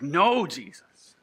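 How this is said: It is said with anger.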